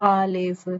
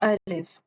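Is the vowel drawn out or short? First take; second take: drawn out; short. First: The vowel is stretched out too long. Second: The vowel is kept short and even. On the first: The speaker calls it wrong. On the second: The speaker calls it right.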